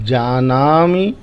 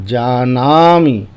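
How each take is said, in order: The two takes are said the same way.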